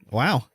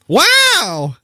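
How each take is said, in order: First: It is said flatly, with little energy. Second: It is said with lively excitement.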